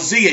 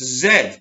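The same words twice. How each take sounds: First: The letter is said the American way. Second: The letter is said the non-American way.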